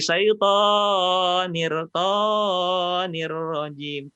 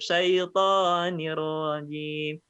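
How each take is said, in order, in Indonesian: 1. Vokal dalam 'syaiton' dibaca terlalu panjang. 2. Vokal dalam 'syaiton' dibaca dua harakat. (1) "toni itu kepanjangan"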